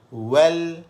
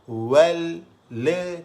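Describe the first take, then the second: First: The final l stops cleanly with no vowel. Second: An extra le vowel follows the final l. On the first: The speaker calls it right. "kena betul-betul kita matikan dia" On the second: The speaker calls it wrong. "le tu suara yang lebih"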